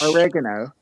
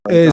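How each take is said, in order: First: It is said the American English way. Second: It is said the British English way.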